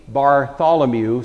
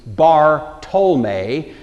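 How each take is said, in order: First: Said in the usual way. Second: Bar Tolme broken into two slow parts, Bar then Tolme; slow split name. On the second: Shown as a demonstration. Explaining the name to listeners, Bar Tolme drawn out syllable by syllable. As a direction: say Bar Tolme very slowly, each part apart. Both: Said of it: "It means Bar Tolme".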